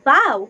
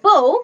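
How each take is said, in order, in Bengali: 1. শব্দটির সঙ্গে 'now'-এর মিল আছে। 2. শব্দটির সঙ্গে 'go'-এর মিল আছে। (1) "যখন উচ্চারণ হবে বাউ তখন হবে front part of a শিপ" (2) "যখন উচ্চারণ হবে বউ তখন হবে ধনুক"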